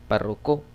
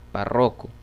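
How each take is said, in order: First: The stress is on the last syllable. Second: The stress is on the middle syllable. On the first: "o aguda" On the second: "me salía grave"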